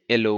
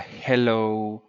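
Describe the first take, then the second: First: The h sound at the start is dropped. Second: The h sound at the start is pronounced. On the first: "they will say hello" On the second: "instead of uh, hello"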